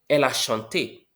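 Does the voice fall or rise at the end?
falls. The voice falls at the end. It states a fact. "She sang"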